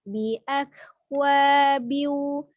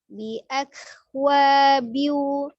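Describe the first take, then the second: Both takes have the same delivery.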